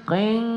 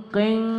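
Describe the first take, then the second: The two takes are said the same way.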